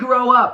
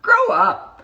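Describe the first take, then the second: First: It is said in a sincere, earnest tone. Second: It is said in a condescending, mocking tone. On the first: The listener should truly mature and step up. The speaker calls it right. "I mean it from literally grow up" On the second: The listener is being talked down to. The speaker calls it wrong. "I don't mean that from like a condescending like"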